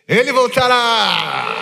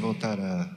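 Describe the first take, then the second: First: It is said with joy and excitement. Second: It is said flatly, without joy.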